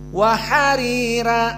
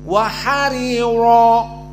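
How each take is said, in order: First: The r sounds are thin and light. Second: The r sounds are full and heavy. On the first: This is the Warsh reading. "dua ra dalam keadaan tarqiq" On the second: This is the majority reading. "jumhur harus tafkhim"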